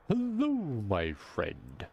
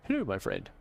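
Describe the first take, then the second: First: It is said in a deep, booming, jolly voice. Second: It is said in an ordinary voice.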